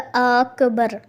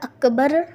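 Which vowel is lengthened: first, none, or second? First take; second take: first; none. First: The first vowel is drawn out long. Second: Both vowels are said short. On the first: The speaker calls it wrong. "अलिफ़ बढ़ा दिया" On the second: The speaker calls it right. "अकबर की जगह"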